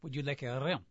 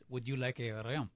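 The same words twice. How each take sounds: First: Softer mock French clerk repeating himself; patient faux French, said quietly; French accent, hushed. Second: Low, soft mock French clerk, insisting; French accent, firm and hushed. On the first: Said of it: "Pink Panther movies". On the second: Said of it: "I said".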